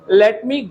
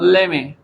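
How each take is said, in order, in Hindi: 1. दोनों शब्द पूरी तरह और अलग-अलग बोले जाते हैं। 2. दोनों शब्द जुड़कर एक हो जाते हैं। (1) "क्या लिखा हुआ है बोर्ड पे" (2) "लेट मी को एक ही साथ वो बोलता है"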